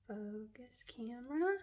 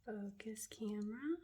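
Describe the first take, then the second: First: Softly voiced coaxing; soft plea. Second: Soft whispered coaxing. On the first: Coaxing the camera to focus, soft voiced plea. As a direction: ask the camera nicely. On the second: Coaxing the camera to focus, whisper. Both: Real, not acted.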